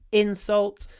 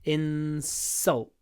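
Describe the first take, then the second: First: The stress is on the first syllable. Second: The stress is on the second syllable. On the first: It is used as a noun. "the stress is on in" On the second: It is used as a verb. "The stress is on the second syllable"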